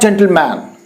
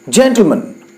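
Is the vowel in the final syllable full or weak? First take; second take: full; weak. First: The final syllable has a full, clear vowel. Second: The final syllable has a weak, reduced vowel. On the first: The speaker calls it wrong. "not gentleman" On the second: The speaker calls it right. "it is sounded as man"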